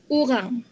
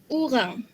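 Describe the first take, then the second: Both takes have the same delivery.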